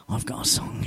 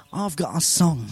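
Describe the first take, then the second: First: Hushed whisper; a sudden unvoiced whisper. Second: Said in the usual way. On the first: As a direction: breathe the words in a whisper. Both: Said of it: "Why am I talking like that?".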